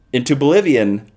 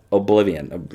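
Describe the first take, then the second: First: "Bolivian" said in place of oblivion; mangled word. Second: Said in the usual way. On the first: Real, not acted. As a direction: slip "oblivion" into "Bolivian", starting on B. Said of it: "not that is next door to Bolivia". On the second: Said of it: "not that is next door".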